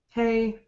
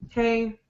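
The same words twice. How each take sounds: First: Flat and unchanging, with a bored tone. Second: Flat and unchanging, with a bored tone.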